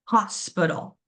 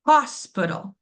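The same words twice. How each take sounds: First: Said in the usual way. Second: Hospital with HOS said higher and louder; stress on HOS. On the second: Shown as a demonstration. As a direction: lean into the first syllable of hospital. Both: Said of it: "my stress syllable".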